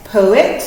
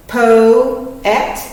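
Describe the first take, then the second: First: Said in the usual way. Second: "poet" as two clear parts, po and et; careful split read of "poet"; syllable split demo. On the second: Shown as a demonstration. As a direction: say "poet" slowly, pulling apart po and et. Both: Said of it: "this one would be".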